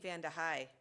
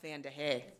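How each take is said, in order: First: The last syllable sounds like 'high'. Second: The last syllable sounds like 'hay'. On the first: This is how people from the area say it. The speaker calls it right. "you'd be saying Vanda High" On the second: This is how outsiders say it. The speaker calls it wrong. "versus Vanda Hay"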